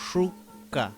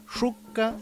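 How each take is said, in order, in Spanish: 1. La palabra empieza con un sonido sh. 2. La palabra empieza con un sonido sh.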